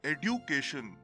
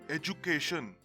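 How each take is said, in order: First: It uses the older British pronunciation. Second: It uses the current, widespread pronunciation. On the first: "this word was said differently in British English" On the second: "the pronunciation of this word is the same everywhere"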